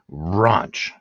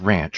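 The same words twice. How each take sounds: First: The word is said with a British pronunciation. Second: The word is said with a non-British pronunciation.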